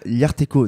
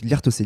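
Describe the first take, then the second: First: The name ends with a 'ko' sound. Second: The name ends with a 'say' sound. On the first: The speaker calls it wrong. "au début, j'étais là, Liarteco. Non, non, attends" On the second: The speaker calls it right. "Donc Liartossé"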